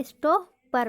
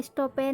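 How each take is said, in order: First: स्टॉपर in two parts, ending in schwa "pur"; correct pronunciation. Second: स्टॉपर misread with "per" as "pair"; wrong pronunciation. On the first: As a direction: say स्टॉपर as "sto-puhr". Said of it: "स्टॉपर पढ़ेंगे". (स्टॉपर का सही उच्चारण, अंत में "अ") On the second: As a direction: end स्टॉपर on an "e" vowel. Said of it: "स्टॉपर नहीं पढ़ेंगे". (स्टॉपर का ग़लत उच्चारण, "स्टॉपेर" जैसा) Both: Shown as a demonstration.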